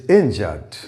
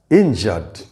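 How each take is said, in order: Both takes have the same delivery.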